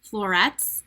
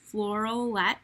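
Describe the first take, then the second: First: "Florets" said carefully as the right name; corrected name. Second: "Floralette" said as a fumbled, mistaken name; tongue-tied slip. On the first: Host correcting herself after a slip, "Florets" said deliberately. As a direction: fix the slip, landing "Florets" cleanly. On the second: Host stumbling on a product name, "Floralette" fumbled. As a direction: trip over the name, "Floralette" coming out wrong. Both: Real, not acted. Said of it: "I can't even talk".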